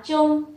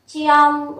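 First: "chung" as one syllable with a rounded u; "chung" with no audible i-o split; blended syllable. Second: "Chiong" with i and ong both heard; "Chiong" sounded out before blending; spelled-out sounds. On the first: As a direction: close it up into "chung". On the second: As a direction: stretch "Chiong" through chi-ong. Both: Shown as a demonstration. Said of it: "đọc là chung".

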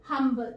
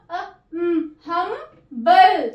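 First: Said in the usual way. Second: humble split slowly as हम-बल; slow sounding out. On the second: Shown as a demonstration. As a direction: stretch humble syllable by syllable. (Humble को धीरे धीरे टुकड़ों में बोलिए) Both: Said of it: "अपनी short sound देगा".

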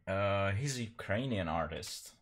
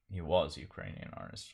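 First: Said in the usual way. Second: "was" stressed, falling, as a self-correction. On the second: Real, not acted. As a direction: lean on "was" to fix "he's". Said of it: "Of course, he's dead".

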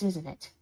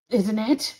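First: Said in the usual way. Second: "Isn't it" pushed out with a rising end; insistent repeat question. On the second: Acted. Roommate calling after the one walking away, insistent rising "Isn't it". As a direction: press "Isn't it" as a demand, pitch rising.

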